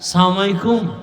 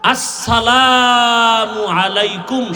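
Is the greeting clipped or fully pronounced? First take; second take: clipped; full. First: The greeting is run together and clipped. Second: The greeting is said in full, word by word. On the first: The person does not know how to greet properly. The speaker calls it wrong. "সালাম pass করে নাই" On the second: This is the proper greeting. The speaker calls it right. "শুধু এই দুইটা শব্দ"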